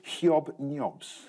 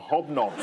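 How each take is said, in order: First: The word is said with added y-glides. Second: The word is said with ordinary English vowels.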